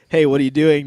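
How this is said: It sounds confident and strong.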